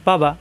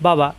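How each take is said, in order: No difference in how they are said.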